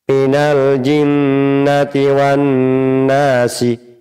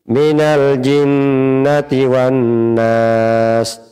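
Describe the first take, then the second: First: The last word ends on a short vowel. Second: The last word ends on a consonant. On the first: The reading continues without stopping. "Tanpa wakaf" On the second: The reading stops at this word. "dengan wakaf"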